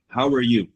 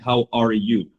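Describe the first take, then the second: First: The words are reduced and run together. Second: Each word is said fully and separately. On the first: "I think it's going to be read like this" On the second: "instead of saying"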